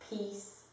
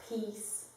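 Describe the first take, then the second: Both takes have the same delivery.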